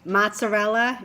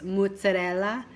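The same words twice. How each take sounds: First: It is said with a Midwestern American pronunciation. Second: It is said with an Italian pronunciation. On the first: The speaker sounds like someone from the Midwest. The speaker calls it wrong. "Mozzarella is like you're from the Midwest" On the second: It is the authentic Italian way. The speaker calls it right. "you pronounce in Italian, it's mozzarella"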